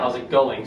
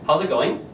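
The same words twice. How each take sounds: First: The voice falls at the end. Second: The voice rises at the end. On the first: It is an ordinary question asking for information. The speaker calls it right. "So it drops. It's dropping at the end" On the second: It sounds like a yes-no question. The speaker calls it wrong. "That sounds weird"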